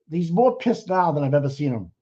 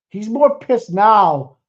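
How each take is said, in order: First: Said in the usual way. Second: More slow and loud, stretched out; stress on more. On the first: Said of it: "repeated plainly". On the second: Real, not acted.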